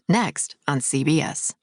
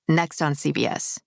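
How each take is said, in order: First: There is a tiny pause inside the phrase. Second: The phrase runs together without any pause. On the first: The speaker calls it wrong. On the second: The speaker calls it right. "like all in one"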